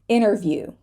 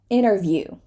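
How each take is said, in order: No difference in how they are said.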